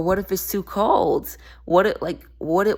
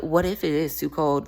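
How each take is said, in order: First: Mock worry. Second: "is" said in full and stressed, as a rebuttal. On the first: Voicing fears that keep you from expanding, mock worry. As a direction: voice a hesitant person's worry, stretching the words. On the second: Acted. Answering the fear of cold water, stress on "is". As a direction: challenge it, leaning on "is". Throws the worry back as challenge.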